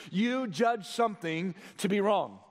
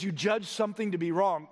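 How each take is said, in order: First: "You judge something to be wrong" in separate, weighted phrases; deliberate emphasis. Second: Said in the usual way. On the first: Shown as a demonstration. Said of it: "listen to that last phrase".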